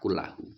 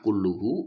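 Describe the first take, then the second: First: The vowel after kull is an a sound. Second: The vowel after kull is a u sound. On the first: The word emphasizes the preceding noun. "dibaca nasab berarti fathah" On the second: The word is the subject of the sentence. "Dibaca rafa berarti dhammah"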